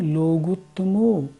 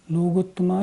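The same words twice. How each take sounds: First: लोगुत्तमो ending in a long o; the right way: लोगुत्तमो; correct ending. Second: लोगुत्तमा ending in a long a; the wrong way: लोगुत्तमा. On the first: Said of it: "ऐसे बोलना होगा". (शुद्ध उच्चारण: लोगुत्तमो) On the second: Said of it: "नहीं". (गलत उच्चारण: लोगुत्तमा) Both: Shown as a demonstration.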